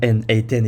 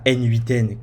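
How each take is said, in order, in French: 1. Les lettres et le chiffre se disent en anglais. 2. Les lettres et le chiffre se disent en français. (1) "qui se prononce bien N huit N" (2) "et pas N huit N comme certains French personnes"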